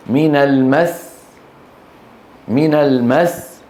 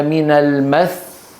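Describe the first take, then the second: First: من المس with the doubled sin pressed, slow; pressed final sin. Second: من المس ended on a single light sin, slow; one sin, wrong stop. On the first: Teacher to students, the correct pressed stop on المس. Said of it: "يضغطون على هذا الحرف الموقوف عليه". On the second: Teacher to students, the wrong stop on المس. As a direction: drop the doubling of the sin in المس. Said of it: "كم سين نطقنا؟ واحدة". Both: Shown as a demonstration.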